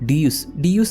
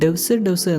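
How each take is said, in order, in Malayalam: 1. ഇത് രണ്ട് അക്ഷരമായി oo സ്വരത്തോടെയാണ് പറയുന്നത്. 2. ഇത് ഒരു അക്ഷരമായി v ശബ്ദത്തോടെയാണ് പറയുന്നത്. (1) "ഡിയൂസ് എന്നാണ് ഈ പ്രൊജക്ടിന്റെ ആക്ച്വൽ നെയിം" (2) "ആക്ച്വലി അതിന്റെ പ്രൊനൗൺസിയേഷൻ ഇങ്ങനെയല്ല"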